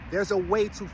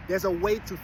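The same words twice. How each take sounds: The two takes are said the same way.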